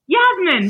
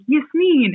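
First: Yasmin with a z, yaz-mun; giving in to the caller's version; switched pronunciation. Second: Put-on child saying her name the usual way; first take of name. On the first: Retold or imitated. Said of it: "And then I was like". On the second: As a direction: say Yasmin as yes-min. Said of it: "I was like".

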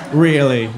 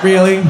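First: Said in the usual way. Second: Incredulous. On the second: Retold or imitated. Incredulous reply to cellmate.

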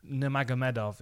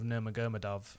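First: "Nurmagomedov" with MED stressed, nur-mag-o-MED-ov; correct pronunciation. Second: "Nurmagomedov" garbled as nur-ma-GUR-ma-dov; wrong pronunciation. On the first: Host showing correct names, "Nurmagomedov" as nur-mag-o-MED-ov. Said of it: "endeavour to pronounce names". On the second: Host showing others' mistake, "Nurmagomedov" as nur-ma-GUR-ma-dov. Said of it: "instead of". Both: Shown as a demonstration.

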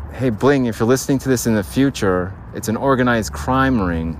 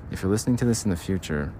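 First: Clear, bright redo of the message to Bling; proper take. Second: Softer, quick, half-swallowed address to future self; hushed aside. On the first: Redoing the bit for future Bling, clearer. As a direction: say it up front this time. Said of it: "There we go. It's gonna sound like that". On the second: Talking to future Bling, quietly rushed. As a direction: mumble the message to future Bling. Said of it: "I ruined that bit". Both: Shown as a demonstration.

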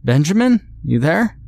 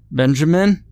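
First: High, loud desperate call. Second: Higher, louder call. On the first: Father desperately calling for his son, loud high call. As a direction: shout out for him, hoping. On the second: Father calling for his lost son, loud call. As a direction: call out for him into the dark. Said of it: "I called out". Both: Acted.

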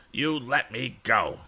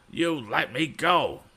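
First: Slow, higher bratty demand; bully demanding Tom release him. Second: Slow, high, louder scream; bully screaming to be released. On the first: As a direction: demand it, dragging each word. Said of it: "demanded Andy". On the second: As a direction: scream it at him word by word. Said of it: "fairly screamed Andy". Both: A narrator's reading.

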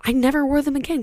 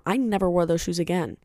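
First: "I never wore them again" said higher, "wore" hit hard; incredulous emphasis on "wore"; emphatic repeat. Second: Said in the usual way. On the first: Real, not acted. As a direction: repeat it with disbelief, stressing "wore". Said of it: "Can you believe that?".

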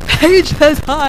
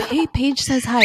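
First: Drawn-out, high, loud mock yell; slow, exaggerated impression of yelling; imitated scream. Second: Said in the usual way. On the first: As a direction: holler it slowly so it carries far away. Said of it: "you can hear Melly screaming". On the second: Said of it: "it wasn't like".

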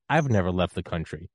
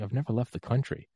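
First: "I'VE never left the country", weight on the first word; stress on I'VE. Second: "I've NEVER left the country", higher pitch lifting on NEVER; retold reply leaning on "never", rising at the end; stress on NEVER. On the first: Retold or imitated. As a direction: throw it back, punching "I've". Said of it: "He goes". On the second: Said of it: "I was like".

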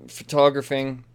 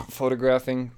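First: "photographing" said as fuh-TAH-gruh-fing, stress on the second syllable; mispronounced word. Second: "photographing" said FOH-tuh-graf-ing, stress on the first syllable; corrected pronunciation. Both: Shown as a demonstration. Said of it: "photographing is not a word".

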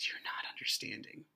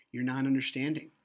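First: Very soft, low, near-whisper; hushed protest. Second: Said in the usual way. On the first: Retold or imitated. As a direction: say it almost under your breath. Retold plea to officer, hushed take.

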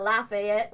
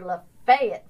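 First: "Lafayette" as LAH-fay-ETT, with full vowels; rejected pronunciation. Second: "Lafayette" slow and loud as luh-FAY-it; Florida pronunciation. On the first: Quoting Floridians on what they're not, rejected full-vowel pronunciation. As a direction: say "Lafayette" loudly with a clear -ETT. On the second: Quoting Floridians correcting her, Florida pronunciation. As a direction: stretch the FAY in "Lafayette", weak ends. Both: Retold or imitated. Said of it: "They call, "We're not Lafayette".

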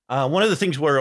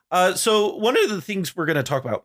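First: Said in the usual way. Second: Voice cracking. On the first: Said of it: "Excuse me". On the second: Real, not acted. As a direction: voice cracks upward mid-sentence. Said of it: "my voice just cracked really bad there".

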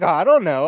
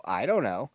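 First: Louder, higher, carefree like found money; louder careless I don't know; breezy shrug. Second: Said in the usual way. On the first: Retold or imitated. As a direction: toss it off like it's nothing. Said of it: "as if it's, like, found money". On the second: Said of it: "And I go".

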